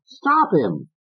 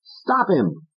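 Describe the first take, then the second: First: High insistent order, repeated; Fats. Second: High insistent order; Fats. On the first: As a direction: hammer it again. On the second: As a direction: push him. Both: Acted.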